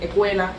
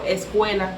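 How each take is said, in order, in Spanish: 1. El sonido s se omite. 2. El sonido s se pronuncia claramente. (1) "se van comiendo las S una tras otra" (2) "En vez de decir un ejemplo"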